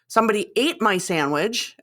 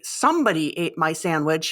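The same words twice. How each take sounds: First: The stress is on "ate". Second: The stress is on "somebody".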